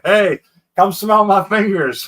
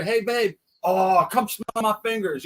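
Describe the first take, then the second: First: Loud, high, drawn-out call; husband's yell. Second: High-pitched mock call, not yelled; husband calling wife. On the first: Acted. Husband calling his wife over to smell his fingers, yelling. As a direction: yell it slowly through the house, playfully. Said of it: "for a husband to yell to his wife". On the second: Husband overheard by the neighbors, mock calling in a higher voice. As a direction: play a husband calling out to his babe, pitched up. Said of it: "if your neighbor's here".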